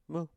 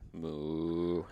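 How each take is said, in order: First: It is a small, mini moo. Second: It is a big, full moo.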